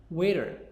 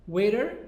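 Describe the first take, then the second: No difference in how they are said.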